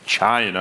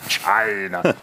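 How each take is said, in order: First: The word is said in an ordinary, neutral way. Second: The word is said in an exaggerated, hostile way. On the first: "it doesn't say China" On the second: "it's just like China, China"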